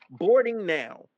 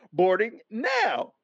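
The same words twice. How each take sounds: First: Said in the usual way. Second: "Boarding now" drawn out slowly, landing on "now"; emphatic reading. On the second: Retold or imitated. Traveler quoting the screen's message, slow and emphatic. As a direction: stretch out "now" to prove the point.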